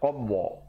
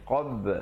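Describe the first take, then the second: First: The final b is rounded with an added vowel. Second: The final b is short and flat. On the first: The speaker calls it wrong. "jangan pula kita qabba, tak betul" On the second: The speaker calls it right. "ba pepeskan"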